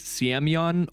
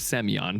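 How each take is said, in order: First: A y-sound follows the S before the vowel. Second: The S goes straight into the vowel. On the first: "The phonetic pronunciation says Siemyon" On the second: "I'm going to go with Semyon because that's kind of the way it's spelled"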